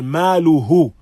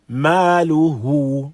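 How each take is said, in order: First: The vowel after the ha is kept short. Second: The vowel after the ha is lengthened. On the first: The speaker calls it wrong. "So we do not say" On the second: The speaker calls it right. "We have some elongation upon it"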